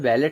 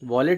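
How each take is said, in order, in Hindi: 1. पहला स्वर 'cat' में 'a' जैसा बोला जाता है। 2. पहला स्वर 'wall' में 'aw' जैसा बोला जाता है। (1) "वैलेट होगा" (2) "वॉलेट इसका प्रोनाउंसिएशन गलत है"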